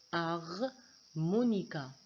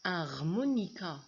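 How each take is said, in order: First: "Harmonica" said slowly, syllable by syllable, silent H; répété lentement; slow spoken demo. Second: Said in the usual way. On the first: Shown as a demonstration. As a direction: stretch out "Harmonica" for the class. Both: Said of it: "j'ai pas prononcé le H".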